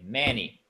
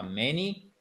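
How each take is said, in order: First: "many" stressed on the first syllable, "MA-ny"; right stress. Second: "many" stressed on the second syllable, the wrong way. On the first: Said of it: "c'est pas many, non, c'est many". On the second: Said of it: "C'est pas many, non, c'est many". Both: Shown as a demonstration.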